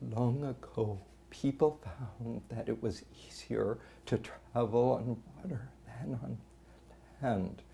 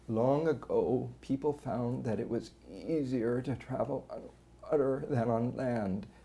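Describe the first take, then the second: First: Voice leaks air, struggling to keep folds closed. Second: Strained voice with squeezes and brief voice stoppages. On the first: "the person's working to keep the vocal folds together"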